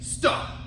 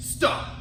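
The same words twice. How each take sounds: First: A deep, forceful voice from the stomach. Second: A deep, forceful voice from the stomach.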